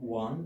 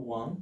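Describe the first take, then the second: No difference in how they are said.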